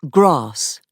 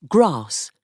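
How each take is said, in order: The two takes are said the same way.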